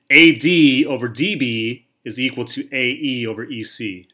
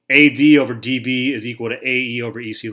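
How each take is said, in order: First: Slow, spaced-out letters in "A D over D B"; slowly out loud. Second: Said in the usual way. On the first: Shown as a demonstration. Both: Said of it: "say that again slowly out loud".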